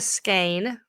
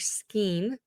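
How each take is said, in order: First: The vowel sounds like 'ay' in 'say'. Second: The vowel sounds like 'ee' in 'see'. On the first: "I've heard them both ways" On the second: "I've heard it skeen as well"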